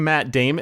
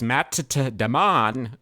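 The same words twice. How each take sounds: First: The name is pronounced in its usual way. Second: The name is pronounced in an odd, distorted way. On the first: The speaker calls it right. "do you mean" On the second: The speaker calls it wrong. "pronounce other names wrong"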